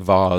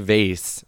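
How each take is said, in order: First: The word is said in a fancy, posh-sounding way. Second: The word is said in a plain, everyday way. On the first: The speaker calls it wrong. "don't say vase" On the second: The speaker calls it right. "just say vase"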